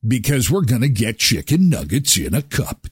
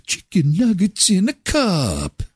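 First: Said in the usual way. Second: A higher, slow sing-song slogan; mock jingle. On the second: Shown as a demonstration. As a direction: announce it like a little jingle, slowly. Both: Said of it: "repeats the slogan".

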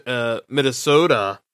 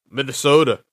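First: Said in the usual way. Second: "Minnesota" in a light Minnesota accent, the t softened toward a d. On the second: Shown as a demonstration. Hockey podcaster tries the name in a mock Minnesota accent. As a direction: say "Minnesota" like a local with a mild Minnesota accent. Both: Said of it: "trying to do my best Minnesota accent".

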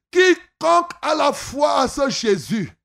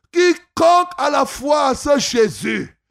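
Both takes have the same delivery.

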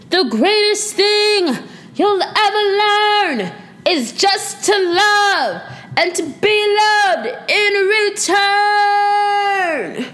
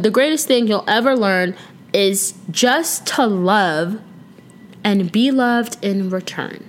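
First: High, slow, belted-out movie line; hammed-up movie quote. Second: Said in the usual way. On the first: Podcaster acts out the Moulin Rouge quote, hammed-up movie delivery. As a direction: declaim it theatrically, stretching each phrase high. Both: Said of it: "that's why I said it like that".

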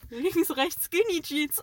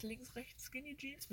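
First: Put-on high, loud chant like passing kids; imitating boys. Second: Very soft, puzzled murmur; muttering. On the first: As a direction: shout it like a cheeky boy on a bike. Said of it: "damit haben wir mal die zwei Jungs gequotet". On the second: Real, not acted. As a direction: mutter it to yourself, thinking. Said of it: "Mir fällt nichts ein".

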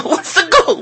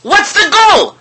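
First: The goal question said again, laughing through it. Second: Mock outrage. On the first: Acted. Preacher mocking soccer to his audience, repeating his question while laughing. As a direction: laugh at your own question about the goal. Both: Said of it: "You know what a goal is?".

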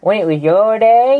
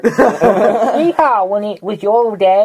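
First: Put-on old prospector. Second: Put-on high, loud hollering old-timer; old prospector. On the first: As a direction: stretch it like an old codger. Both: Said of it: "two old people have a conversation".

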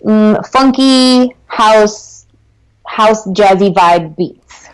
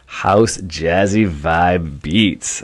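First: Drawn-out, relishing each word; slow and dreamy; slow savoring. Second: Very slow, relishing echo. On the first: Savoring the words slowly. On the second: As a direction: stretch every word out. Echoing the phrase slowly. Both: Real, not acted.

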